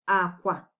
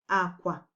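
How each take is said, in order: Both takes have the same delivery.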